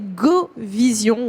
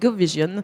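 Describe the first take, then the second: First: It is said with a French pronunciation. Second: It is said with an English pronunciation.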